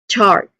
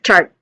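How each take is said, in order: First: The vowel is long and drawn out. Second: The vowel is short and clipped. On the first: The speaker calls it right. "but a long ah vowel sound" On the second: The speaker calls it wrong. "not a short"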